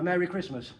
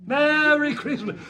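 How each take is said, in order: First: Said in the usual way. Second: High, loud and slow Merry Christmas; loud, slow festive shout. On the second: Shown as a demonstration. Comedian greeting the crowd, high, loud and slow. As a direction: belt out Merry Christmas slowly. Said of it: "I like it".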